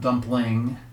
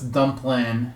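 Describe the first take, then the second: First: The word ends with the final g sound. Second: The word ends without the final g sound. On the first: "not dumpling" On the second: "I love how it's dumplin"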